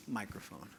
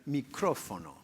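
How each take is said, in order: First: Microphone stressed on MI, English style; first-syllable stress. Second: Micrófono with the Spanish stress on CRO. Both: Shown as a demonstration. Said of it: "put the stress on the first syllable".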